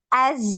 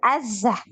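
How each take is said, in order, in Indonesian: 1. Z di akhir mengalir halus tanpa memantul. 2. Z di akhir memantul dengan tambahan vokal. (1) "gitu, ngalir aja" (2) "jangan azah, jangan dipantul"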